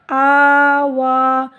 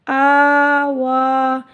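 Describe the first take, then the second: First: आवा held very long with a stop at the end; pause form recited. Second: आवा held very long, each a stretched; drawn-out recitation. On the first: Teacher showing the pause reading, drawn out. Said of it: "इसका वक्फ़ भी ऐसे ही होगा". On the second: Teacher reciting the joined word to pupils, drawn out. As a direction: chant आवा slowly. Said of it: "वाओ खड़ी ज़बर वा". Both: Shown as a demonstration.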